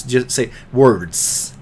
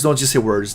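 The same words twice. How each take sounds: First: "words" said slowly with its final "ds" fully sounded; slow, careful delivery finishing the "ds" in "words"; enunciated slowly. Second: Said in the usual way. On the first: Shown as a demonstration. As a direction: stretch "just say words" and crisp the end of "words".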